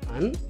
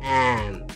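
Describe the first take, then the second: First: It has a reduced schwa vowel. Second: It has a full, open vowel. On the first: "ఇది వీక్ form" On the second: "ఇది strong"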